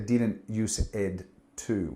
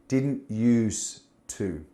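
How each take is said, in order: First: An extra 'ed' syllable is said after 'use'. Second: No extra syllable is said after 'use'. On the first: The speaker calls it wrong. "We don't say didn't use ed to" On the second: The speaker calls it right. "We say didn't use to"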